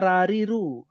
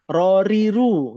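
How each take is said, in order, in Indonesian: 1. Suku kata pertama punya vokal 'ra' yang terbuka. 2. Suku kata pertama punya vokal 'ro' yang bulat. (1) "nggak ada rariru" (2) "adanya R-O"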